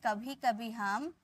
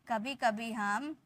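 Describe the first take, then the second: The two takes are said the same way.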